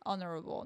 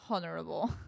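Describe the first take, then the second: First: The word starts without an h sound. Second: The word starts with an h sound. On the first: The speaker calls it right. "You don't say H in honorable. It's honorable" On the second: The speaker calls it wrong. "not honorable"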